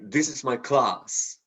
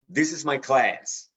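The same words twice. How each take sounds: First: Class is said with a British vowel. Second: Class is said with an American vowel. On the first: "But British will say" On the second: "an everyday word for us like class"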